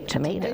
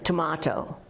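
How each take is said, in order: First: It has an American A sound, 'tomayto'. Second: It has a British A sound, 'tomahto'. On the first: This is how the listener says it. "whereas you say" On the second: This is how the speaker from England says it. "I still say"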